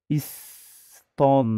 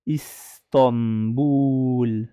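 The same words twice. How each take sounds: First: "Istanbul" with a flat a, Ista-; the wrong take, "Istanbul" with an "a" sound; the mistaken vowel in "Istanbul". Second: "Istanbul" slow, said "Istobul" with an open o; the corrected "Istanbul", slow and clear; open o, slowly. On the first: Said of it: "Pas Istanbul". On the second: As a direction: stretch out "Istanbul" with an "o" sound. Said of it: "c'est Isto". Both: Shown as a demonstration.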